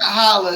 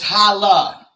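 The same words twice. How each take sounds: First: The word ends in an 'er' sound. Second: The word ends in an open 'ah' sound. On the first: The speaker calls it wrong. "not holla" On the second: The speaker calls it right. "it's holla"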